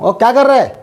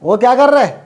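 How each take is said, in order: First: The ending is squeezed into one short syllable. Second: The same.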